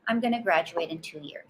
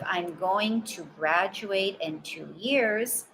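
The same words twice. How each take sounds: First: Going to is reduced and blended into gonna. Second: Going to is said fully as separate words. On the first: The speaker calls it right. "Sounds much more natural" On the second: The speaker calls it wrong. "Instead of"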